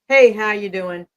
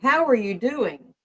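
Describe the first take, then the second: First: It is asked in a quick, offhand way. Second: It is asked slowly and with real care.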